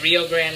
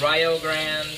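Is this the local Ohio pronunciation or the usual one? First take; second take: usual; local. First: It uses the usual pronunciation heard elsewhere. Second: It uses the local Ohio pronunciation. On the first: This is how it is said everywhere else. "instead of Rio Grande" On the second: This is how locals name the Ohio town. "it's Rio Grande"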